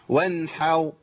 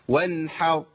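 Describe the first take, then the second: No difference in how they are said.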